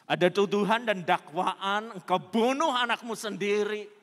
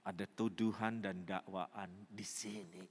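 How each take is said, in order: First: Loud, raised preaching cry; thundered accusation. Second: Low, soft, heavy voice; hushed admission. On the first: Preacher voices accusation of killing her child, thundered accusation. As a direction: hurl it out as a condemning charge. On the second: Preacher voices woman's inner sense of accusation, hushed admission. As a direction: say it inwardly, as a burden. Hushed take before thundered repeat. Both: Acted.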